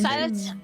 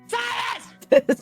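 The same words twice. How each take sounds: First: The name is said at normal, quieter volume. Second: The name is said loudly.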